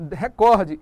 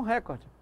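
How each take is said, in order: First: "recorde" stressed on the middle syllable, re-COR-de; loud, careful re-COR-de for "recorde"; correct stress. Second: "recorde" stressed on the first syllable, RÉ-cor-de; wrong stress. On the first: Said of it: "Eu devo dizer". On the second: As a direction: move the beat to RE in "recorde". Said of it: "e não recorde". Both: Shown as a demonstration.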